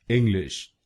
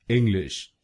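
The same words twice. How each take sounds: The two takes are said the same way.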